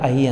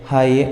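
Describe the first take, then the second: First: The word begins directly with the vowel. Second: The word begins with an h sound. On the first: The speaker calls it wrong. "ಐ ಅಂತ ಹೇಳಿದರೆ ಐ ಅಂತಲೇ ಬರೆದ್ಬಿಡ್ತೀವಿ" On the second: The speaker calls it right. "ಹೈ ಅಂತ ಹೇಳೋ ಬದಲು"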